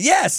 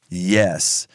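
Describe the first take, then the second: First: The word is said with strong, forceful emphasis. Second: The word is said mildly, without much force. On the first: The speaker calls it right. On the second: The speaker calls it wrong.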